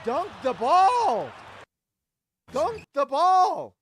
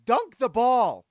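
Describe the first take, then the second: First: High, slow, loud yell; exasperated yell. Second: Loud, slow shout; loud slow command. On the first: Fan yelling at the replay of Kessler's miss, furious shout. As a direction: bellow it at the screen in disbelief. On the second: Fan shouting at Kessler, slow loud order. First yell. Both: Real, not acted.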